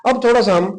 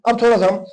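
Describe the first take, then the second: No difference in how they are said.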